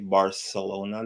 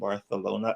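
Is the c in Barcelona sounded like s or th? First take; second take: s; th. First: The c is sounded like an s. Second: The c is sounded like a th. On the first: "they don't say Barcelona" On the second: "It's almost like you're talking with a lisp"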